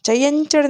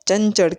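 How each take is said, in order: First: The nasal before ch sounds like ny. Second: The nasal before ch sounds like plain n. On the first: This is the strictly correct form. "ચયંચળ નથી કહેતા, હકીકતે સાચું ચયંચળ છે" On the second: This is how people usually say it. "આપણે એને ચંચળ કહીએ છીએ"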